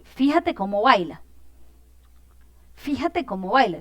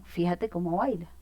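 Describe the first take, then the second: First: Exclamation. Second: Said in the usual way. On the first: Shown as a demonstration. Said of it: "estoy transmitiendo como una emoción". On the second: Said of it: "yo puedo decir lo mismo".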